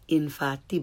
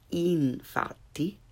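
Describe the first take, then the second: First: The i vowel is lax, like English 'ih'. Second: The i vowel is tense, like English 'ee'. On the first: The speaker calls it wrong. "Not infatti" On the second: The speaker calls it right. "but infatti"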